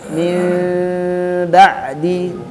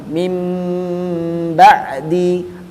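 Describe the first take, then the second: First: The m is made with lips slightly apart. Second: The m is made with lips fully closed. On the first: "ada renggang di antara bibir" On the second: "bibirnya uh, rapat sempurna"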